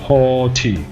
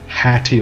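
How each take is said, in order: First: The first vowel sounds like in 'thought'. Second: The first vowel sounds like in 'hat'. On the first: The speaker calls it right. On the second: The speaker calls it wrong.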